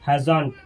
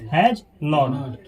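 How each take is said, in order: First: It is merged into one short word. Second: It is said as two full words.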